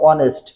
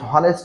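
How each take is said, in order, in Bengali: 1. শব্দটি স্বরধ্বনি দিয়ে শুরু হয়, h নেই। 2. শব্দটি h-এর উচ্চারণ দিয়ে শুরু হয়। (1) "এটা হচ্ছে অনেস্ট" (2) "হনেস্ট না"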